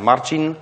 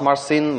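First: The name sounds like the English word marching. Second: The name has a different sound, not like marching. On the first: The speaker calls it right. "let's just agree that I'm Marcin" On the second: The speaker calls it wrong. "not Marcin"

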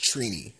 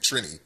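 First: The name is said at a normal pace. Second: The name is said too quickly. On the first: The speaker calls it right. "but it's pronounced Trini" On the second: The speaker calls it wrong. "They were saying it like too fast"

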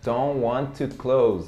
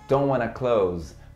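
First: The words 'want to' are said separately. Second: The words 'want to' blend into 'wanna'. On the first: It is the more formal way to say it. "Poderia também ter falado assim" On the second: It is the informal way to say it. "wanna é como se fosse a forma mais informal do want to"

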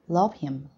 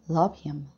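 First: The word 'him' is reduced and weakened. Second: The word 'him' is reduced and weakened.

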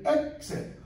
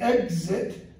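First: The word does not sound like 'egg-zit'. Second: The word sounds like 'egg-zit' with a buzzing z. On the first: "or others will say exit" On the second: "Egg, zit"

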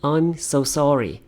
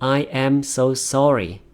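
First: The words are run together quickly and contracted. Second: Each word is said fully at a careful pace.

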